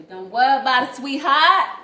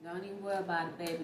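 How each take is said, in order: First: Much higher and louder, hammed-up sweet reassurance; loud mock reassurance. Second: Said in the usual way. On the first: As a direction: belt it out like doting on someone.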